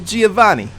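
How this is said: It is said in a put-on character voice.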